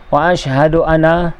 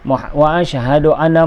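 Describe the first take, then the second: The two takes are said the same way.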